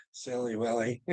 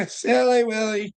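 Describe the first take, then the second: First: Soft tease. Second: Higher "Silly Willie", stress on "Silly"; singsong tease. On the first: Teasing Willard, low and soft. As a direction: lower and much softer "Silly Willie". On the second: Teasing Willard again, higher singsong. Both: Real, not acted.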